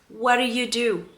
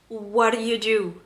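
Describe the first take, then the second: Both takes have the same delivery.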